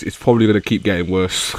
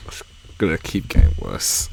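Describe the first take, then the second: First: Said in the usual way. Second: Low eerie whisper; dark whisper behind you. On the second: Acted. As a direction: breathe it ominously, unvoiced. Whispered repeat, unvoiced and darker.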